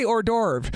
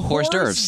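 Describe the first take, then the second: First: The first word starts without an h sound. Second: The first word starts with an h sound. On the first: The speaker calls it right. "I say hors d'oeuvre" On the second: The speaker calls it wrong. "No, you don't pronounce the H"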